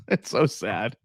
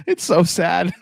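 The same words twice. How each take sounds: First: Slow, softer mock lament; mock mournful. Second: Laughing it out, a bit higher. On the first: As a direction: drag out "It's so sad" in fake grief. Repeats the lament slowly and softly. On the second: Real, not acted. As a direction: laugh through the words "It's so sad". Laughing at his team's old title.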